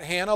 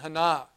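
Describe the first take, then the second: First: The name has the familiar modern American pronunciation. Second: The name has an older, non-American pronunciation. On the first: This is how people say it today. "not Hannah, like we say it today" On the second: This is how it was probably said in ancient times. "I believe it would have been Hannah"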